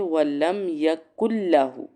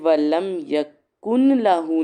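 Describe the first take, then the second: First: The n merges into a doubled l sound. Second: The n sound is clearly pronounced before lahu. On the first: The speaker calls it right. "इसको पढ़ेंगे वलम यकुल लाहू ... नून बिल्कुल आवाज़ स्किप कर जानी" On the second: The speaker calls it wrong. "ये वलम यकुन लाहू नहीं पढ़ेंगे"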